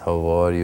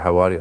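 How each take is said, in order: First: It is said slowly in an Iranian accent. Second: It is said fast in an Arabic accent.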